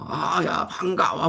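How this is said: The greeting is loud and aggressive.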